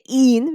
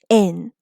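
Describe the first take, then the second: First: The vowel is a long ee sound. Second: The vowel is a short i sound. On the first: The speaker calls it wrong. "We don't say in" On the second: The speaker calls it right. "we say in"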